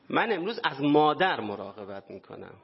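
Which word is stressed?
مادر. The stress falls on the word for mother.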